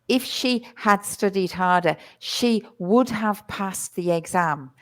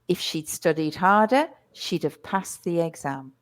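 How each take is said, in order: First: Every auxiliary word is said in full. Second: The auxiliary words are contracted and run together. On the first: The speaker calls it wrong. "Your fluency stops when you start saying" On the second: The speaker calls it right. "So the fluency is"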